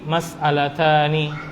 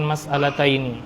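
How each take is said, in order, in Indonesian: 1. Kata itu berakhir dengan bunyi 'ani' yang pendek. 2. Kata itu berakhir dengan bunyi diftong 'aini'. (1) "Yang benar adalah indi mas'alatani" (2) "bukan mas'alataini"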